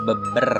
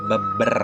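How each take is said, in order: First: The vowel is a short, weak schwa sound. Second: The same.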